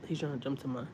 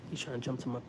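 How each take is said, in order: Both takes have the same delivery.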